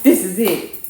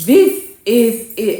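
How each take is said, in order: First: THIS IS IT said firmly and loudly at normal pace; emphatic finality. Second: THIS IS IT very slow and loud; drawn-out finality. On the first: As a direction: declare THIS IS IT, loud and final. Fed-up declaration after the phone. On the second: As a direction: stretch THIS IS IT word by word, much louder. Repeats it, drawn out for emphasis. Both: Retold or imitated.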